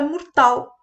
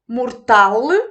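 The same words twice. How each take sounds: First: The word ends on the l sound. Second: The word ends with a final e vowel. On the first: This is the modern form. "para que a palavra ficasse mortal" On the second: This is the older form. "retirou-se o som final E"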